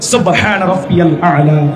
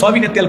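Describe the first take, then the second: First: The phrase is articulated clearly, word by word. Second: The phrase is slurred and mumbled together. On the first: The speaker calls it right. "স্পষ্ট করে বলতে হবে" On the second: The speaker calls it wrong. "অনেকে আবার দেখবেন খালি আওয়াজ দেয় সুবহানাল্লাহ কই না"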